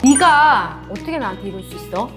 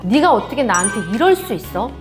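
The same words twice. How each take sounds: First: The first word is set apart and stressed. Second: The stress falls on the final verb phrase. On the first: The hurt is aimed at this particular person. "네가를 먼저 떼어 강조함으로써" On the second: The focus is on the whole event. "이럴 수 있어에서 한번 제가 강조를 해볼게요"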